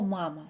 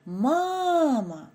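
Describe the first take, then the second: First: Said in the usual way. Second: First syllable of Мама drawn out high; Мама with a long, raised first syllable, falling at the end; stressed first syllable. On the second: Shown as a demonstration. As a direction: stretch and lift the first "ма" in Мама. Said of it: "я вимовляю сильніше".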